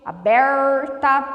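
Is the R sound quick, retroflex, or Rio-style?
retroflex. The R is a drawn-out retroflex sound. This is how northern Paraná speaks. "nós usamos o R retroflexo, que é um R bem puxado"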